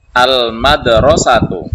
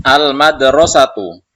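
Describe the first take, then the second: First: Slow, drawn-out and loud, each syllable spelled out; slow loud model reading. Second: Teacher calls the word out loud, then falls; loud model reading. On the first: Teacher repeats the word slowly and loudly for students. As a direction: stretch it out loudly so pupils catch every sound. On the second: Teacher reading a word loudly for the class. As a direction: boom it out for the class to echo. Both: Shown as a demonstration. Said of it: "Maka kita baca".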